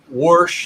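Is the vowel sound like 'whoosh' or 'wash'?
whoosh. The word has an 'oo' vowel, like whoosh. A regional Pittsburgh way of saying it. "my mom said whoosh instead of wash"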